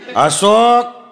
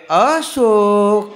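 First: The name is called in a sharp, stern tone. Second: The name is called in a soft, tender voice.

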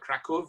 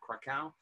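First: The city name is said the Polish way. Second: The city name is said the German way. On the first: This is the form preferred in Poland today. The speaker calls it right. "If you go to Poland today, they much prefer Krakow" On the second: This is the German form of the name. The speaker calls it wrong. "not Krakow. / Krakow is the German way"

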